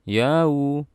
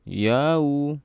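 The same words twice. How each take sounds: No difference in how they are said.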